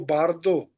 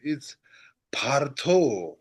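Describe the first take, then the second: First: It begins with a voiced b sound. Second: It begins with a soft unvoiced p sound. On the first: The speaker calls it wrong. "It's not Bardo" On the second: The speaker calls it right. "it's Partho, soft par"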